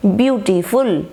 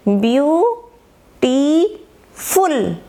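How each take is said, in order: First: Said in the usual way. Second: beautiful in three drawn-out beats, view, टी, फुल; syllable by syllable. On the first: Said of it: "फिर फुल". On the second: Shown as a demonstration. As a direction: split beautiful slowly with pauses between syllables. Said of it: "इसमें तीन syllables हो गई हैं". (Beautiful को ब्यू, टी, फुल में तोड़कर, खींचकर)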